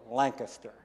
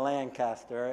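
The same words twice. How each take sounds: First: The second syllable sounds like 'kis'. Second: The second syllable sounds like 'cas'. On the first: The speaker sounds like a local. The speaker calls it right. "L-A-N-K-I-S-T-E-R, so Lancaster" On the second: The speaker sounds like an outsider. The speaker calls it wrong. "instead of Lancaster"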